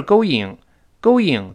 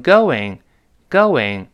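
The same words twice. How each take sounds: First: "going" as "go-ing", two vowels with no w between; without the glide. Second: "going" as "go-wing", with a w between the vowels; slow "going", rounding into a clear "wing"; added w glide. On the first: Teacher shows students the ugly version, going without glide. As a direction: say "going" stiffly as separate "go" and "ing". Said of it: "不是going，going多难听啊". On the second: Teacher shows students the smooth version, going with w glide. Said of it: "人为的加一个喔". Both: Shown as a demonstration.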